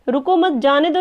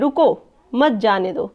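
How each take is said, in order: First: There is a pause right after 'mat'. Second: There is a pause right after 'ruko'. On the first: The listener is told not to stop but to let someone go. "रुकना नहीं है, जाने दो" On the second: The listener is ordered to stop and not let someone go. "रुको के बाद comma लिखा है"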